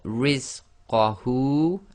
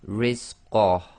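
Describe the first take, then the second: First: The word ends with a final vowel sound. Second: The word ends on a bare consonant sound. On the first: "at the end here you've got rizqahu" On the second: "we read that last letter as if it's sakin"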